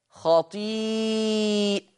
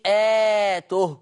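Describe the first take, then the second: First: خطيئته said slowly as khaṭīʾatuhu, singular with open hamza; خطيئته recited slowly with a long drawn ī; Hafs reading. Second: خطيئاته said as plural khaṭīʾātuhu with a long alif after the hamza; خطيئاته recited with the extra long ā; Warsh reading. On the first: Teacher giving the Hafs singular reading, slow careful recitation. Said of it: "يقرأ حفص لفظ". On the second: Teacher contrasting the Warsh plural reading, careful recitation. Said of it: "أما ورش فيقرأ بالجمع". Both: Shown as a demonstration.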